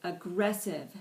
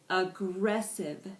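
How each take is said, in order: First: Said in the usual way. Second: "Aggressive" said slowly, syllable by syllable; slowed-down pronunciation. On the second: Shown as a demonstration. Teacher modelling "Aggressive" for the class, slowed down by syllable. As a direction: draw out each syllable of "Aggressive". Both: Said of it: "with varying degrees of speed".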